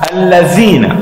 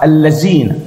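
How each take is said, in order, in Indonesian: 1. Huruf tengahnya bunyi th. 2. Huruf tengahnya bunyi z biasa. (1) "تخرج لسانك" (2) "يقرأ خطأ"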